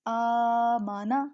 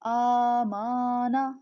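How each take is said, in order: First: The vowels after m and n are kept short. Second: The vowels after m and n are drawn out. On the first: The speaker calls it right. "Right आमाना" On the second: The speaker calls it wrong. "जो इस तरह पढ़ेगा, मीम को लंबा करेगा, नून को लंबा करेगा, तो वो समझें गलत पढ़ा है"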